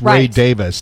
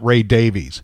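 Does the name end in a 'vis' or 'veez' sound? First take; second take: vis; veez. First: The name ends with a short 'vis' sound. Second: The name ends with a long 'veez' sound. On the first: This is how the bearer says his own name. The speaker calls it right. "[name] pronounces it Davis. It's [name] Davis" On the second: This is how the bearer does not say his own name. The speaker calls it wrong.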